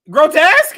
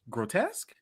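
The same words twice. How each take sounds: First: It is said in a snide, mocking questioning tone. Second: It is said in a gentle, polite questioning tone. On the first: The listener is being belittled. "somebody I don't like, bitch" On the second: The listener is kindly corrected. "oh, is that how you pronounce it?"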